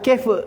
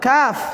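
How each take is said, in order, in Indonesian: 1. Vokalnya bunyi eh yang lebih ke depan. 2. Vokalnya bunyi ah yang terbuka. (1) "bukan kef"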